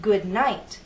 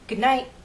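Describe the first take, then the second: First: The final T is fully released. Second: The final T is cut off in the throat. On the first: "Instead of" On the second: "The T is cut off"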